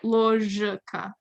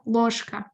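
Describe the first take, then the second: First: The consonant before the K is voiced. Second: The consonant before the K is unvoiced. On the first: The speaker calls it wrong. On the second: The speaker calls it right.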